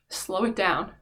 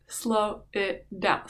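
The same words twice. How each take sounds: First: Said in the usual way. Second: SLOW IT DOWN stretched out word by word; drawn-out slowing. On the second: Retold or imitated. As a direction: say "slow it down" very slowly, each word dragged. Repeats it, acting out slowing down.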